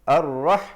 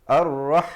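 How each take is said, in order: Both takes have the same delivery.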